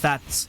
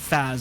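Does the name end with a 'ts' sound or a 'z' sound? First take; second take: ts; z. First: The name ends with a crisp ts sound. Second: The name ends with a buzzing z sound. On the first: The speaker calls it right. "it's Fats" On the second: The speaker calls it wrong. "It's not Faz"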